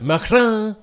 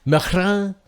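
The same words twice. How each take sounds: First: Macron hammed up, N dropped, much higher and louder; N left silent, exaggerated. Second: Macron with the N silent, louder and higher; N left silent. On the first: Pushing J C's silent-N Macron even further. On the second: Retold or imitated. Mocking J C's French-style Macron, N silent. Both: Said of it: "leave the N silent".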